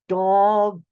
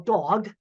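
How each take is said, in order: First: The word is said slowly, each sound enunciated. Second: The word is said at an ordinary speed.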